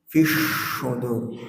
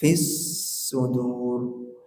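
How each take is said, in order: First: The s is made with the tongue middle. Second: The s is made with the tongue tip. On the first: The speaker calls it wrong. "Tidak boleh begini" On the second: The speaker calls it right. "Kecilkan. ... Fis sudur di ujung"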